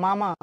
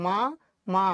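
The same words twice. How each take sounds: First: Said in the usual way. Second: "মা মা" as two syllables with a clear pause between; broken into pieces. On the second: Shown as a demonstration. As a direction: say "মা", stop, then "মা". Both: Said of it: "মামা শব্দের টুকরো অংশ".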